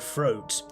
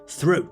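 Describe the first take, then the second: First: The word begins with an F sound. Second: The word begins with a TH sound. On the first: The speaker calls it wrong. "not throat with an F" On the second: The speaker calls it right. "T H, as the Queen would say it properly"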